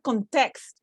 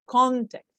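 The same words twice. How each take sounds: First: The stress is on the second syllable. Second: The stress is on the first syllable. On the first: The speaker calls it wrong. "It's not context" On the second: The speaker calls it right. "No, context, because it's a noun"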